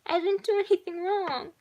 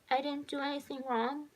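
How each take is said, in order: First: Put-on high, loud little-girl wail; acted tearful child, pitch way up; crying protest. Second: Put-on high little-girl question, rising at the end; small, higher voice seeking reassurance; child asking. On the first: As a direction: protest your innocence like an upset child. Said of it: "clinging to him and crying". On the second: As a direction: ask it unsurely, like a tearful child. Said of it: "the little girl asked the boy". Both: A narrator's reading.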